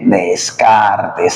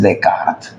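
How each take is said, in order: First: Every letter is sounded, as it is written. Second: It is said with French pronunciation. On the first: "se escribe" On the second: "en francés es Descartes"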